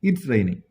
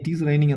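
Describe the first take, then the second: First: 'It is' is squeezed into one syllable. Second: Both words 'it is' are said in full. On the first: This is how native speakers say it. "പക്ഷേ ഇറ്റ്സ് raining" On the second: This is how learners usually say it. "ഇറ്റ് ഈസ് raining എന്ന് പറയും"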